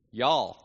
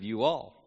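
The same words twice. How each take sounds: First: "Y'all" squeezed into one drawled syllable; Texan contraction. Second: Said in the usual way. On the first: Shown as a demonstration. Preacher showing two syllables into one, Texan "Y'all". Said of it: "two syllables into one". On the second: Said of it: "instead of you all".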